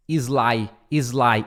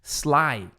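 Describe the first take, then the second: First: "sly" as "ee-zlai", I in front; Brazilian added vowel. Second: "sly" opening on S with no vowel; pure S start. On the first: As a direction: start "sly" on an I, Brazilian style. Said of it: "com esse I no começo". ("sly" com I no começo, "izlai") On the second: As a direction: begin "sly" straight on the S sound. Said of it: "é S". ("sly" começando direto no S) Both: Shown as a demonstration.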